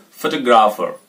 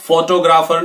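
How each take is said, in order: First: photographer with a short "fuh" start, "fuh-TOG-raafer"; photographer reduced at the start, falling; correct stress, off FO. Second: Higher photographer with full "FOH-toh"; photographer as "FOH-toh-graafer", rising; wrong stress on FO. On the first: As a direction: keep the opening of photographer light. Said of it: "next में भी ऐसे रहेगा". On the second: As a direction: lean on फो in photographer. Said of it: "photographer नहीं". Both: Shown as a demonstration.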